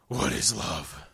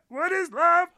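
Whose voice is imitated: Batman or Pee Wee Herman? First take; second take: Batman; Pee Wee Herman. First: It is said in a Batman voice. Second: It is said in a Pee Wee Herman voice.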